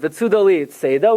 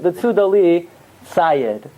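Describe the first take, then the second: First: The last word ends in an 'ah' vowel. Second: The last word ends in a 'd' sound. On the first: It is read as the word is spelled. The speaker calls it wrong. "We don't pronounce it" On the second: It is read the traditional way. The speaker calls it right. "We pronounce it"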